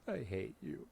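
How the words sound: It is said warmly, sounding affectionate.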